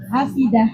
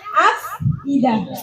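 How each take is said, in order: First: The f runs straight into the vowel. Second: A glottal stop separates the f and the vowel. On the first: The hamzah's vowel moves to the letter before it and the hamzah is dropped. "akhirnya hamzahnya nggak diperlukan, dibuang" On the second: This is the original form of the word. "Yang asalnya af idah"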